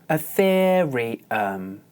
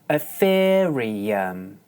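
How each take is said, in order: No difference in how they are said.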